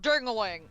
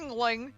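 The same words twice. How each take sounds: First: The name is said with three syllables. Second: The name is said with two syllables. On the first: The speaker calls it wrong. "I thought dingaling was the correct pronunciation" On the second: The speaker calls it right. "Those words are smashed together!"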